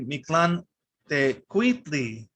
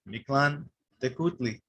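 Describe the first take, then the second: First: The second word has a W sound. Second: The second word has a plain U vowel. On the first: The speaker calls it right. "the U H is actually a W sound" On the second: The speaker calls it wrong. "I pronounced it like this for many years"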